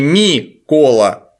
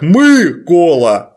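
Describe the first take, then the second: First: The first vowel is a front 'и' sound. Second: The first vowel is a central 'ы' sound. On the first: The speaker calls it wrong. "а не как не «ми-кола»" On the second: The speaker calls it right. "по-украински звучит как «мы-кола»"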